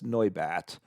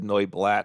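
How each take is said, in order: First: No L sound comes before the final syllable. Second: An L sound comes before the final syllable. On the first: The speaker calls it right. "It's Noibat" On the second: The speaker calls it wrong. "I apologize if I said Noiblat in the introduction"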